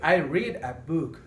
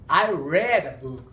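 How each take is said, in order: First: The word read rhymes with seed. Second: The word read rhymes with bed. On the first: The reading happens in the present. The speaker calls it wrong. "No podríamos decir" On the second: The reading happened in the past. The speaker calls it right. "se pronuncia red, como color rojo casi"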